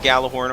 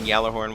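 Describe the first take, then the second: First: The word begins with a hard G sound. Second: The word begins with a Y sound. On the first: This is the pronunciation the speaker has long used. "I used to pronounce it Gallahorn" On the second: This is the pronunciation friends say is correct. "some of my friends have recently been telling me that it's pronounced Yallerhorn"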